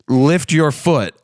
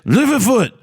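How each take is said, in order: First: It is said in a plain American accent. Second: It is said in an angry German accent. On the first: What the command actually meant. "was actually you saying lift your foot" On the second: An unfamiliar speaker's hard-to-understand command. "your fucking German accent of saying angrily"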